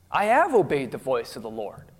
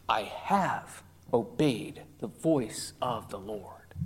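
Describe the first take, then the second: First: Said in the usual way. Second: Breathy hushed lie, low and soft; sly whisper. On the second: Retold or imitated. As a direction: whisper the false claim as if to oneself. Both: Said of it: "Listen to that".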